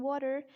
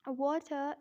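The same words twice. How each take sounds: First: American "water" with flapped T and final R; American-accent demo of water. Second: British "Water" with a crisp T and no R; British-accent demo of Water. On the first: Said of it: "in American accent". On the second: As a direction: say Water the British way, schwa ending. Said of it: "in British accent". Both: Shown as a demonstration.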